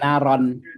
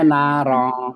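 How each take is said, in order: First: The final nasal is a short plain n. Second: The final nasal is held with a ng-like sound. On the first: The speaker calls it wrong. "bukan naron" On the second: The speaker calls it right. "bacanya narong"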